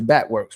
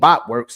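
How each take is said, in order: First: The first vowel sounds like 'bat'. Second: The first vowel sounds like 'bot'. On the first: The speaker calls it right. "it's Batworks" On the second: The speaker calls it wrong. "It ain't Botworks"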